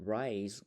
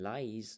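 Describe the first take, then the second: First: Rice said with a clear initial R; correct pronunciation. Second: Rice mispronounced with L, as "lice"; wrong pronunciation. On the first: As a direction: start "rice" on an R sound, not L. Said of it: "เวลาออกเสียง rice เนาะ ออกเสียง". (ອອກສຽງ rice ໃຫ້ຖືກ ດ້ວຍສຽງ R) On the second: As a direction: swap the R in "rice" for an L. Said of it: "ถ้าออกเสียงผิดจะเป็น". (ອອກສຽງ rice ຜິດເປັນ lice ດ້ວຍສຽງ L) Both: Shown as a demonstration.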